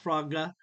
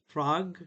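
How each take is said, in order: First: An extra vowel follows the final g. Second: It ends cleanly on the g sound. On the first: The speaker calls it wrong. "not frogga" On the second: The speaker calls it right. "Frog, not frogga"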